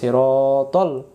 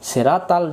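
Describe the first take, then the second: First: The first S sound is emphatic and heavy. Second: The first S sound is plain and light. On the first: The speaker calls it right. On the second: The speaker calls it wrong.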